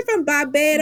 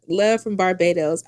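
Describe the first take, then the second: First: Higher, playful mock Barbados accent; hammed-up attempt at a Bajan accent; bad Barbados accent. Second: Said in the usual way. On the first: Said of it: "That was a bad accent".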